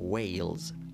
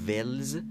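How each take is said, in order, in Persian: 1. مصوت صدای بلند 'ay' است. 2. مصوت صدای کوتاه 'eh' است. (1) "تلفظ صحیح انگلیسیش یک بار دیگه ویلز" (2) "اما ولز نیست"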